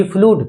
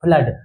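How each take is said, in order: First: फ्लूड with a long oo vowel, flood as flude; फ्लूड stretched with a long u, the mistaken way; wrong reading. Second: फ्लड with a short clipped a vowel, flud; फ्लड said short and crisp, the right way; correct reading. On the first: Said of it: "फ्लूड नहीं पढ़ेंगे ना इसको". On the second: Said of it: "इसको क्या पढ़ेंगे?". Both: Shown as a demonstration.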